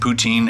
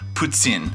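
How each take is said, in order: First: It is said the plain English way. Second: It is said the French way, with an S-like sound. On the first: "but I'm not French, so I say it poutine" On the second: "almost sounds like there's like an S in it"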